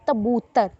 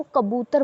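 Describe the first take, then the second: First: "तबूतर" with a t sound replacing the initial k; misarticulation demo. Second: Said in the usual way. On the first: Shown as a demonstration. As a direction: imitate a child's lisping error, saying "तबूतर" for kabootar. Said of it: "कबूतर नहीं बोल पाएंगे". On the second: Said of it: "जैसे वो कबूतर बोलता है".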